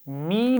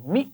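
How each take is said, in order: First: The vowel is drawn out long. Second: The syllable is said very quickly. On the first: "लंबा नहीं करेंगे" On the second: "बहुत जल्दी से भी नहीं पढ़ना"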